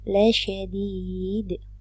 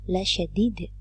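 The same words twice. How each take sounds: First: The vowel before the final d is long. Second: The vowel before the final d is short. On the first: The speaker calls it right. "Maka dibaca mad tabi'i panjang dua harokat" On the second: The speaker calls it wrong. "Tidak boleh dibaca pendek atau la syadid. Tidak boleh. Itu salah"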